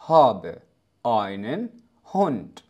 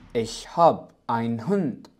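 First: Every word is pronounced fully without shortening. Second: Habe loses its ending and einen is shortened. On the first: It is the standard textbook form. "هذه جملة طبيعية لأي شخص يتحدث بشكل طبيعي، وكما لو أنك تقول بلغة العربية الفصحى" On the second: It is how Germans usually say it. "تصريف فعل هاب اختفى، فقد أصبحت هاب ich hab ... الآينن ... يجب أن نقوم باختصاره"

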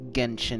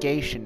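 First: The first syllable rhymes with "ten". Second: The first syllable rhymes with "gain". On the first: The speaker calls it right. "It is Genshin Impact. not a G-E-N" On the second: The speaker calls it wrong. "Not Genshin Impact, like I've been saying. I've been saying it with a G-E-I"

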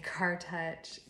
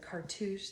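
First: The ending sounds like the word touch. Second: The ending sounds like toosh, with a long vowel. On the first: The speaker calls it wrong. "I say Car Touch" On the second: The speaker calls it right. "So cartouche"

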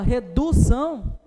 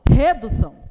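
First: The stress is on the second syllable. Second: The stress is on the first syllable. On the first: "Também não" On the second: "Não, desculpa, tá?"

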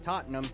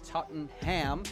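First: The final syllable 'ham' is weak and reduced. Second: The final syllable 'ham' is clearly stressed. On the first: The speaker calls it right. "it is pronounced Tottenham" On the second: The speaker calls it wrong. "not Tottenham ... why would you not emphasize the ham?"

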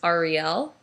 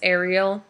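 First: It sounds unlike the Disney mermaid's name. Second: It sounds like the Disney mermaid's name. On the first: The speaker calls it right. "technically the correct pronunciation is Ariel" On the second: The speaker calls it wrong. "if you want to call me a Disney princess"

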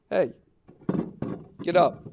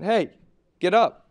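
First: It is said gently and softly. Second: It is said forcefully and louder.

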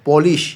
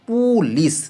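First: The first vowel is an 'o' sound. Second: The first vowel is a 'u' sound. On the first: The speaker calls it right. "PU দিয়া পু না হয়ে প হবে" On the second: The speaker calls it wrong. "এটা উচ্চারণ কি পুলিশ"

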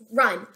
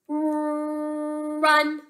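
First: The word is said fast as one unit. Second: The word is stretched out sound by sound. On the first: The blended sounds are read as a whole word. "Say it fast" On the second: The sounds are being blended one at a time. "Watch me. Listen"

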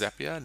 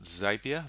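First: The name rhymes with the word happier. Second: The name does not rhyme with happier. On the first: The speaker calls it right. "It is pronounced Zapier ... it rhymes with happier" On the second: The speaker calls it wrong. "not Zapier. That's a holiday destination in South Africa"

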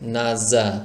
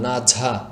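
First: The second consonant is a plain z sound. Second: The second consonant is a breathy jh sound. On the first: The speaker calls it right. "কোনো বাতাস বের করা যাবে না ... দেখুন আমি কিভাবে আওয়াজ করছি" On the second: The speaker calls it wrong. "অনেকে এভাবে বলেন ... বাংলা ভাষায় ঝ এর মতো বলে ফেলেন, এটা করা যাবে না"

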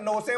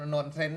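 First: The word is said as two words, 'no sell'. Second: The word is said as one word, 'nonsense'. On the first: Someone else mispronounced it this way. The speaker calls it wrong. "คุณเฉลิมบอก, no, sell" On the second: This is the intended English word. The speaker calls it right. "ที่คุณพูดถูกแล้ว, nonsense"

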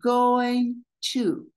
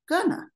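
First: Both words are said fully and separately. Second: The words are pushed together into one reduced form.

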